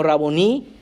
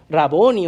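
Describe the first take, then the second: First: "raboní" with the stress on the last syllable; final stress, raboní. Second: "raboni" with the stress on the middle syllable; alternative stress, raboni. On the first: Preacher offers two ways to say the Hebrew title, raboní stressed at the end. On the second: Preacher offers two ways to say the Hebrew title, raboni stressed mid-word. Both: Shown as a demonstration. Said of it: "raboni o raboní".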